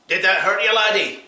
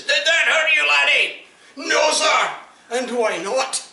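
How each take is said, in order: First: Loud, high bellowed question; sergeant shout. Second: Much higher, loud shouted questions; sergeant shout. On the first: Sergeant shouts at the soldier he just hit, high and loud. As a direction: yell it down at the soldier. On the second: Sergeant shouts at the soldier he just kicked, very high and loud. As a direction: scream it at the ranks. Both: Acted.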